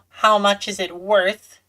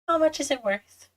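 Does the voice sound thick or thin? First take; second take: thick; thin. First: The voice sounds thicker and heavier. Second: The voice sounds thinner and lighter. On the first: The speaker calls it wrong. "Instead of saying" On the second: The speaker calls it right. "I'm trying to say a little thinner"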